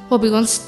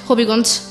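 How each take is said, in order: Both takes have the same delivery.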